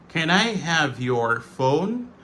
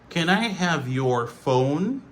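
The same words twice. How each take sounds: Both takes have the same delivery.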